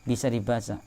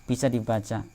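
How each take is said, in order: Both takes have the same delivery.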